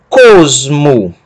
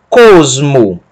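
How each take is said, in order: The two takes are said the same way.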